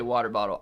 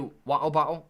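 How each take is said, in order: First: It is said in a plain American accent. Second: It is said in a mock British accent.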